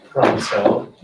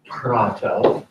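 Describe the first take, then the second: First: "prato" with an s replacing the t; "prato" said the other Greeks' way, s for t; non-Athenian Greek pronunciation. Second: "prato" with a t in the second syllable; "prato", t sound rather than s; Athenian pronunciation. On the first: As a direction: say "prato" as "praso". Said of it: "other Greeks would say praso". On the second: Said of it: "Athenians would say prato". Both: Shown as a demonstration.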